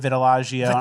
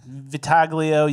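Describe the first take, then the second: First: The middle is said like 'tili', ending 'go'. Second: The middle is said like 'tag', ending 'lio'. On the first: This is the speaker's own way of saying it. "and I say" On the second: This is the other person's way of saying it. "you say"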